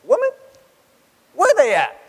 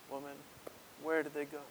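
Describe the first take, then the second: First: Brash mock yell, high and loud; "Where they at?" shouted high and loud; wrong blunt delivery. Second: Soft, gentle Jesus voice; quietly asking where they went; tender question. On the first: Shown as a demonstration. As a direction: fling it out rudely, the way it shouldn't sound. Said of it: "No. That's not the feel here". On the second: Acted. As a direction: ask her gently, as if to comfort. Jesus speaks tenderly to the woman.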